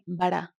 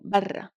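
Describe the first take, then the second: First: The r sound is short and single. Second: The r sound is held and doubled. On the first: The speaker calls it wrong. "we are not saying bara" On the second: The speaker calls it right. "the shadda is doubling the R sound"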